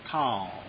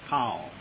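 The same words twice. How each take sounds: No difference in how they are said.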